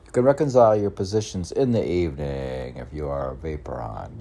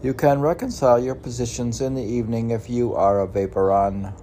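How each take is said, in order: First: Said in the usual way. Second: Loud, quick proclamation; declaiming. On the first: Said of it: "A vaporon is a". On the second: Acted. Reading his own saying aloud, loud and brisk. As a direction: read it out like a decree.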